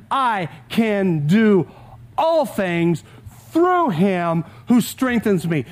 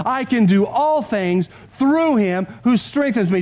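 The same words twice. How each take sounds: First: Slow, pausing before "all things" and "through"; slow solemn quote. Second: Said in the usual way. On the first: Shown as a demonstration. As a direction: savour each phrase of the verse. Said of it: "The Apostle Paul says this". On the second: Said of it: "This is worth saying out loud too".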